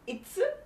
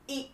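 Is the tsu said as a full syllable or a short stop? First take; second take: full syllable; short stop. First: The tsu is said as a full syllable. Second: The tsu is only a short stop. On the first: The speaker calls it wrong. "It's not itsu" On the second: The speaker calls it right. "there's a small tsu after e"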